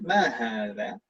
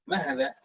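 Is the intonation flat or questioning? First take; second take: questioning; flat. First: The pitch moves like a question. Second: The pitch stays level throughout. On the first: The speaker calls it right. "itu kita intonasinya bertanya" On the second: The speaker calls it wrong.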